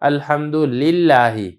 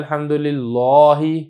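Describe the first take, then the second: First: The L in lillahi is light and thin. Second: The L in lillahi is heavy and thick. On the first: The speaker calls it right. "ये चूँकि पहले ज़ेर है तो इसको लिल्लाहि पढ़ना है" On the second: The speaker calls it wrong. "तो ये लहन ख़फ़ी है"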